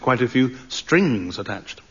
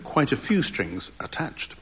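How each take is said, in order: First: The word strings is strongly emphasised. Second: The word strings gets no special emphasis. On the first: The speaker calls it right. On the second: The speaker calls it wrong.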